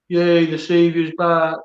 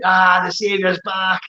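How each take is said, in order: First: It sounds mocking and sarcastic. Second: It sounds genuinely enthusiastic and happy.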